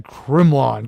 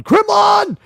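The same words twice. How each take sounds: First: Low, drawn-out name; low-pitched. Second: High, shouted name. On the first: Host naming a fan in the roll call, low-pitched. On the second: Host hailing a fan in the roll call, shouted. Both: Pretend.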